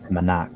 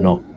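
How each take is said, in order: First: The word is said with an American accent. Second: The word is said with a Filipino accent.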